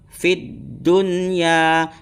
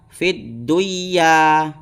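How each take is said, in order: First: The n sound is pronounced clearly. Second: The n sound is dropped and merged. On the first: The speaker calls it right. "harus dibaca dengan jelas dan terang" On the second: The speaker calls it wrong. "Jangan sampai dibaca fid duya"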